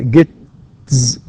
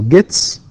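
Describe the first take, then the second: First: The word ends with a buzzing z sound. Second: The word ends with a hissing s sound. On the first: The speaker calls it wrong. "You can't say t and then followed by z" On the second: The speaker calls it right. "because the final sounds in these verbs, right, are voiceless"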